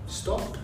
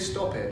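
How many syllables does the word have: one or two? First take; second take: one; two. First: The ending is a short t sound, no extra syllable. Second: The ending is an extra syllable, like 'it'. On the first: The speaker calls it right. "It's stopped" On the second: The speaker calls it wrong. "We don't say stop it"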